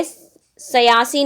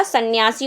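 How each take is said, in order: First: सयासी said slowly as sa-yaa-si, with no n; wrong form demo. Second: सन्यासी said as san-yaa-si, with a half n before y; correct form demo. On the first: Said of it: "सयासी नहीं होता". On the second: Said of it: "सन्यासी होता है". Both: Shown as a demonstration.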